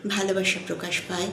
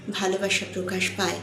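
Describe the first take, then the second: No difference in how they are said.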